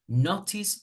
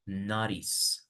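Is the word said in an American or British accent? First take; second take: British; American. First: It is said in a British accent. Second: It is said in an American accent. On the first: "notice is British pronunciation" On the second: "American will be better to say notice"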